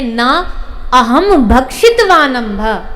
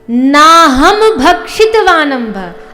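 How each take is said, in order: First: Na is separated from aham by a break. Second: Naham is said as one joined word.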